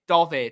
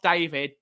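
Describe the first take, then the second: First: The first vowel is an 'o' sound. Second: The first vowel is an 'ay' sound. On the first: The speaker calls it right. "only if you say it like that" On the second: The speaker calls it wrong. "No, not David"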